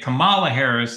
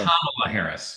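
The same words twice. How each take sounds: First: The stress is on the second syllable. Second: The stress is on the first syllable. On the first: The speaker calls it wrong. "if you say Kamala Harris, it's racist" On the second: The speaker calls it right. "the first syllable is what you accent"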